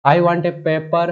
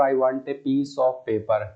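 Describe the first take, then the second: First: Sentence read slowly and loudly; slow, loud dictation of the wrong version. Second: Corrected sentence read slowly; slow dictation of the corrected version. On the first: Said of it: "paper नहीं होता है". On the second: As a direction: dictate the right sentence deliberately. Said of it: "हम बोलेंगे यहाँ पर". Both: Shown as a demonstration.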